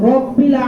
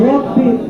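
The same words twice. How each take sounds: The two takes are said the same way.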